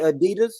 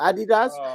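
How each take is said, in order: First: Adidas is said with an American pronunciation. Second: Adidas is said with a British pronunciation. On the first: This is how the speaker's own group says it. "We call it Adidas" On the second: This is how the listener's group says it. "Y'all call it Adidas"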